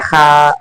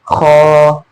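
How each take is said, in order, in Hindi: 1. यह पतली है, मुँह खूब फैलाकर। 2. यह भारी है, भरी और मोटी आवाज़ के साथ। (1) "मुंह चीर कर नहीं पढ़ा" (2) "आवाज में भराव के साथ पढ़ा जाता है"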